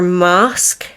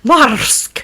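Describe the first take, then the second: First: The word has no audible R sound. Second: The word has a rolled R sound. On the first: This is how local English speakers say it. "the way it's pronounced is more Mask, because English people tend to pronounce their R slightly different" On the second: This is how the speaker will say it. "because we roll them here"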